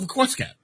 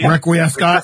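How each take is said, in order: First: It is said like the words request cat. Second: It is said with the Latin-style middle vowels. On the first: "but it's called Request Cat" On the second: "how it's actually said?"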